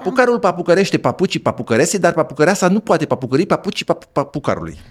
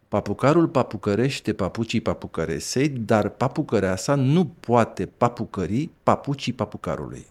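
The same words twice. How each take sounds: First: It is said at a somewhat faster pace. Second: It is said at a slower, careful pace.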